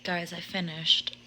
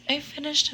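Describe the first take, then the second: First: Said in the usual way. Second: Laughing through it, pitched up with glee; laughing excited. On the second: Real, not acted. Telling viewers she finally finished, laughing. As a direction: burst out laughing as you say it.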